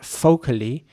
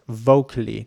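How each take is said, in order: First: The word starts with an F sound. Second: The word starts with a soft V sound. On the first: The speaker calls it wrong. "not focally, as some people might do if English is not your first language" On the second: The speaker calls it right. "pronounce the V at the beginning um, very soft"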